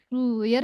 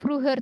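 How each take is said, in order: First: The h is silent and the u is long. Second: The middle h is pronounced and audible. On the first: The speaker calls it right. "Ingat H di tengah-tengah nggak dibaca. Früher langsung ke E-nya. Tapi U-nya jadi panjang" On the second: The speaker calls it wrong. "nggak früher"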